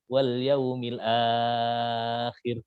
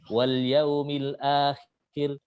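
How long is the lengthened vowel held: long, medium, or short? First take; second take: long; short. First: The lengthened vowel is held for a long time. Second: The lengthened vowel is held for a short time. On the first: "enam harokat" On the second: "dibaca dua harokat"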